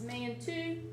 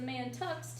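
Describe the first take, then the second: First: The word ends with an oo sound. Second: The word ends with a ks sound. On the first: The speaker calls it right. "It's pronounced Mann-two" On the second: The speaker calls it wrong. "that's not how it's pronounced"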